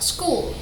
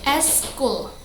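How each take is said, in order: First: The word begins directly with the s sound. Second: An extra vowel sound comes before the s. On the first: "in English like" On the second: "when people in Indonesia say"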